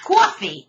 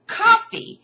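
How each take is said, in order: First: "coffee" as CWAW-fee, rounded first vowel; rejected regional pronunciation. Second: "coffee" as KAH-fee, open first vowel; high, drawn-out "coffee" as KAH-fee; insisted-on pronunciation. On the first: Teacher acting out the debate, "coffee" as CWAW-fee. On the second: Teacher acting out the never-ending debate, insistent KAH-fee for "coffee". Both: Shown as a demonstration. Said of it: "It's not coffee, it's coffee".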